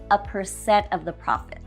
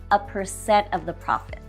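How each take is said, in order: Both takes have the same delivery.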